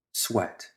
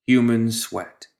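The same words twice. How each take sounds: First: Barely voiced, dropped almost to nothing; a soft, near-silent discovery; hushed realization. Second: Slow, with Human leaned on hard; weight on human. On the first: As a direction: breathe the word as if sniffing it out. Narrator breathes a discovered smell. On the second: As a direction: draw out Human, then let sweat fall. Narrator lands the grim detail. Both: A narrator's reading.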